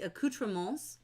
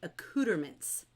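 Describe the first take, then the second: First: The word is pronounced with French sounds. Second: The word is pronounced with English sounds. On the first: "You can pronounce it the French way" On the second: "you can pronounce it the anglicized way"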